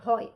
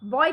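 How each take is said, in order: First: The first consonant is an aspirated bh. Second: The first consonant is a plain b. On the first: The speaker calls it right. "ব নহয় ভ হৈ গ'ল" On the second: The speaker calls it wrong. "বয় নহয়"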